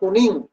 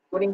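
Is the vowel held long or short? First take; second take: long; short. First: The vowel is held long. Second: The vowel is held short. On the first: It means very yellow. "kuning sekali" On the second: It means yellow. "kuning biasa"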